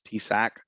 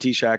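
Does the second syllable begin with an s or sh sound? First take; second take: s; sh. First: The second syllable begins with an s sound. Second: The second syllable begins with an sh sound. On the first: This matches how the letters are written. "it doesn't say shack, it's T-Sack" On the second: This is how most people commonly say it. "But I call it T-Shack"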